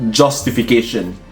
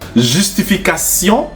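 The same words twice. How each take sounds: First: It is pronounced the English way. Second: It is pronounced the French way.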